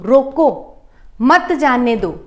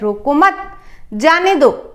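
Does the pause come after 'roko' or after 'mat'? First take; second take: after roko; after mat. First: There is a pause right after 'roko'. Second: There is a pause right after 'mat'. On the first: Stop the person; do not let them go. "अब यहां पर मैं अगर अल्प विराम यहां लगा देती हूं" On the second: Do not stop the person; let them go. "अगर इसी को कॉमा को हम यहां लगा देते हैं"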